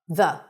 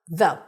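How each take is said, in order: First: The vowel is a short, reduced uh sound. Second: The same.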